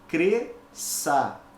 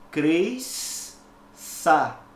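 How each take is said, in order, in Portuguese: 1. As letras S e Ç são pronunciadas como um único som. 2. As letras S e Ç são pronunciadas como dois sons. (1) "duas letras, mas apenas um som. Então, eu pronuncio corretamente" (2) "Eu não posso pronunciar cresça. Isso é errado"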